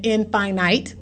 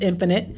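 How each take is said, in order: First: "infinite" said as in-FINE-ite; spelling-style pronunciation. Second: Said in the usual way. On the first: Shown as a demonstration. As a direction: read "infinite" as in plus finite, in-fye-nite. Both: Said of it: "but it's pronounced infinite".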